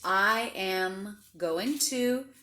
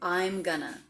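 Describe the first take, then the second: First: Every word is said fully and separately. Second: The words are contracted and blended together.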